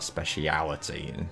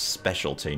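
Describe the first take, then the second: First: The word is said with five syllables. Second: The word is said with three syllables. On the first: The speaker calls it wrong. "not speciality" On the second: The speaker calls it right. "It's specialty"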